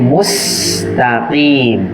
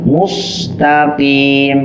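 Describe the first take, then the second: First: The s sound is light and plain. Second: The s sound is heavy and emphatic. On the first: The speaker calls it right. "Padahal di situ huruf sin" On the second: The speaker calls it wrong. "huruf sin yang terkadang terdengar seperti sod"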